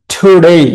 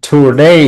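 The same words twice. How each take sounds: First: Today said with to- light and -day hit, falling; stress on -day. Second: Said in the usual way. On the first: Shown as a demonstration. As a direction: punch the second syllable of Today. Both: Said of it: "টুটা হচ্ছে unstress".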